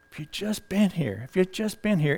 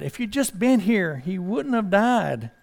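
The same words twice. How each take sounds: First: Much softer, quietly repeating the lament; hushed grieving echo. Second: A touch of grief, slowing on the last words; lightly pleading, slower at the end; mild distraught plea. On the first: Preacher echoing Martha's lament, soft and grieving. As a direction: let it fall to a soft, grieving murmur. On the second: Martha to Jesus about her dead brother, mildly grieving. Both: Acted. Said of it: "And she was distraught".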